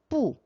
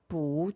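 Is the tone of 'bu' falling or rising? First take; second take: falling; rising. First: The syllable is said with a falling tone. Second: The syllable is said with a rising tone. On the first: "사성" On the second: "뿌가 이성으로 성조가 변해야 되겠죠"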